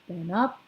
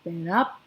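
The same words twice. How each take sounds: The two takes are said the same way.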